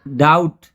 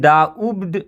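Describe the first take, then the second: First: The word has no b sound before the t. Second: The word has an audible b sound before the end. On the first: The speaker calls it right. "इसमें बी silent है" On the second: The speaker calls it wrong. "इसको हम डाउब्ड नहीं पढ़ेंगे"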